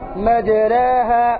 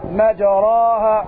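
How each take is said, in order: First: The vowel after r leans toward e. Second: The vowel after r is a fully open a. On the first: The speaker calls it right. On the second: The speaker calls it wrong.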